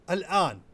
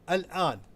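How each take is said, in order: The two takes are said the same way.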